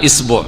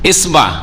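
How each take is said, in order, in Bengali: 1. b-এর পরে u স্বরধ্বনি আছে। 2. b-এর পরে a স্বরধ্বনি আছে। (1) "শুধু বায়ের হরকত" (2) "শুধু বায়ের হরকত"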